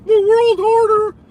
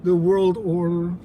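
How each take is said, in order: First: High, loud squeaky parody of the phrase; mock it in a shrill cartoon squeak; mocking squeal. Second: Said in the usual way. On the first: Streamer mocking the caller's phrase in a loud high squeak.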